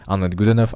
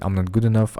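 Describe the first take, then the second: First: It is said in a fearful, tense tone. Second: It is said in a pained, hurting tone.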